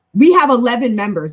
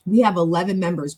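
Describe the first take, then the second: First: Proud, loud announcement; sudden loud burst of pride; excited announcement. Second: Said in the usual way. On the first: Real, not acted. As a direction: burst out with it, loudly. Proudly announces the club's member count.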